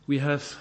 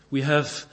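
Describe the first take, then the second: No difference in how they are said.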